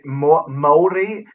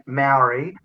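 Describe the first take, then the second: First: Maori said as "Mol-dee", with a rounded o; te reo-style "Maori" with a tapped r; native-style pronunciation. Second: Maori said the usual Australian way, "mow-ree"; plain Aussie-accented "Maori"; anglicised pronunciation. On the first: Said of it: "cultural appropriation to say". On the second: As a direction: say Maori without any te reo vowels. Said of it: "that's not the way our accent". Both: Shown as a demonstration.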